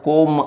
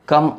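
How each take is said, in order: First: The vowel is a rounded 'oh' sound. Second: The vowel is a short 'uh' sound. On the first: The speaker calls it wrong. "कोम असं होतं" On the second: The speaker calls it right. "इथं कम असं केलं जातं"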